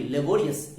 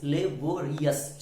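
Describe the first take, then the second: First: Said in the usual way. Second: laborious slowly, syllable by syllable; four syllables. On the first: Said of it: "बोलिए laborious". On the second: Shown as a demonstration. Teacher counting syllables for students, laborious in four slow beats. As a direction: break laborious into le, bo, ri, yas. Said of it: "चार syllable है".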